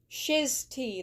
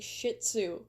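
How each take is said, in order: First: The second part sounds like 'tea'. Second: The second part sounds like 'tzu'. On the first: This is the proper way of saying it. The speaker calls it right. "That's how you say it" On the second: This is the habitual way of saying it. The speaker calls it wrong. "I'm used to saying"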